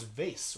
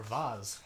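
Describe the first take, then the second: First: VASE rhyming with "face"; vase as "vayce"; pronunciation variant. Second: VASE with a broad AH and a Z; vase rhyming with "Oz"; pronunciation variant. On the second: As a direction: say "vase" as "vahz". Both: Shown as a demonstration. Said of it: "however you like to say it".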